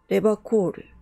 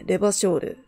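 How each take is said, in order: First: The middle consonant is a hard k sound. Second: The middle consonant is a soft sh sound. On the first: It is the old-fashioned, traditional way of saying the name. "俺はハードな発音が好きなんだ。昔ながらの言い方さ。" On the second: It is the refined, elegant way of saying the name. "シュレーヌ風の美しい発音だ。エレガントな書という音が入ってる"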